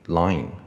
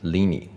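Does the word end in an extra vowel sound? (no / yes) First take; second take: no; yes. First: The word ends cleanly on the n sound. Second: An extra vowel follows the final n sound. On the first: The speaker calls it right. "我们念Line 就好了" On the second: The speaker calls it wrong. "不念Lini"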